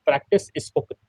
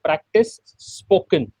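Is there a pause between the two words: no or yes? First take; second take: no; yes. First: The two words run together without a pause. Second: A short pause comes after the first word. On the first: The speaker calls it wrong. "एक flow में बोलने जाते हैं तो वो practice spoken" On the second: The speaker calls it right. "practice के बाद एक आप छोटा सा पॉज लें"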